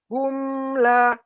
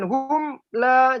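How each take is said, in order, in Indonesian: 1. Bunyi m mengalir halus ke la. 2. Bunyi m terputus dengan sentakan. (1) "tersambung dia, tidak mati" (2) "jangan hum la, jangan seperti dihentak"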